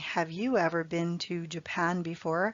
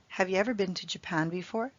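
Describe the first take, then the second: First: 'You' is pronounced fully and clearly. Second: 'You' is reduced to a quick 'ya'. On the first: "Instead of saying" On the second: "A native English speaker would say, have ya"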